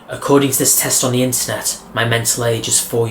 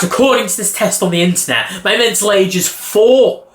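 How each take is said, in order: First: It sounds flat, gloomy and deadly serious. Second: It sounds light, playful and slightly sarcastic. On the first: The speaker truly believes the claim. The speaker calls it wrong. "I said it in a very depressing voice, as if I believed it" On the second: The speaker is joking about the claim. The speaker calls it right. "slightly sarcastic type of tone of voice"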